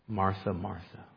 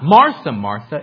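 First: The name is repeated in a warm, affectionate tone. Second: The name is repeated in a harsh, scolding tone. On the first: The speaker cares for her. The speaker calls it right. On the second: The speaker is rebuking her. The speaker calls it wrong. "It's not"

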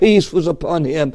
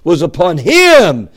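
First: The word him is said without special emphasis. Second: The word him is said with strong emphasis.

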